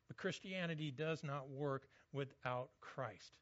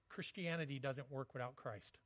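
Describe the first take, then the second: First: Slower, stress on "not" in "does not work"; slow emphatic restatement. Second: Said in the usual way. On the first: Shown as a demonstration. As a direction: lean into every word of "Christianity does not work without Christ". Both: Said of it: "I know that sounds really simple".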